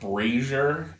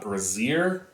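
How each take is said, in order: First: It is said like the word for a fire pan. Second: It is said like the word for a bra. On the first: The speaker calls it right. "It's pronounced brazier" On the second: The speaker calls it wrong. "That is something that ladies use to hold their boobies up"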